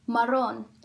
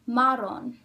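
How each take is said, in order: First: The stress is on the last syllable. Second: The stress is on the first syllable. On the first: The speaker calls it right. "it's pronounced marrón" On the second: The speaker calls it wrong. "it has to have the stress in the second to last syllable"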